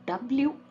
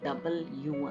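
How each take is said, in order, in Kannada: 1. ಅಕ್ಷರದ ಹೆಸರನ್ನು ಸಂಕುಚಿತವಾಗಿ ಎರಡು ಉಚ್ಚಾರಾಂಶಗಳಲ್ಲಿ ಹೇಳಲಾಗುತ್ತದೆ. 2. ಅಕ್ಷರದ ಹೆಸರನ್ನು ಮೂರು ಪೂರ್ಣ ಉಚ್ಚಾರಾಂಶಗಳಲ್ಲಿ ಹೇಳಲಾಗುತ್ತದೆ. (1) "ಡಬ್ಲ್ಯೂ ಅಂತಾನೂ ಹೇಳ್ಬೋದು" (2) "ಡಬಲ್ ಯು ಅಂತಾನೂ ಹೇಳ್ಬೋದು"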